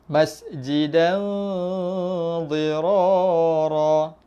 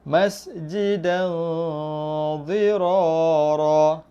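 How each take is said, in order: No difference in how they are said.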